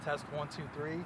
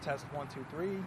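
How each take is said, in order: No difference in how they are said.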